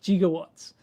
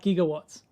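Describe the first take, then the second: The two takes are said the same way.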